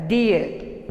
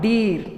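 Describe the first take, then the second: First: "deer" with a glide, DEE-uh; "deer" as a drawn-out dee-uh; correct pronunciation. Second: "deer" as one syllable with a plain long ee; "deer" without the schwa glide; wrong pronunciation. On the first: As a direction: say "deer" gliding from ee into a schwa. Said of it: "We have to pronounce it as". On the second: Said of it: "not deer". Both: Shown as a demonstration.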